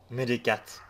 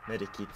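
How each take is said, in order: First: "Medicat!" blurted loud, stress on the first syllable; mock-proud blurt of medicat. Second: "Medikit" said plainly as the correction; corrected word. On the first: Gamer blurting the wrong item name, loud. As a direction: snap out "Medicat!" as the wrong word. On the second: Gamer correcting medicat to medikit, plain. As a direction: fix it to "Medikit". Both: Real, not acted. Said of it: "Medikit, sorry".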